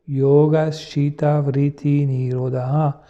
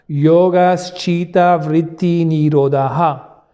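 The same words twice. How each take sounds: First: It is said two steps softer and lower. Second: It is said loudly, at full voice. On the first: "on va rebaisser d'un ton" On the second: "le dire à haute voix"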